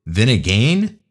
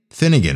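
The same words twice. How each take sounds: First: Vinnigan said with a V and a questioning rise; a tentative Vinnigan rising like a question; unsure mispronunciation. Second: Finnegan said with an F and a firm fall; settled pronunciation. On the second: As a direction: Finnegan stated confidently, falling at the end. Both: Shown as a demonstration. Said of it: "it might be the kid's name".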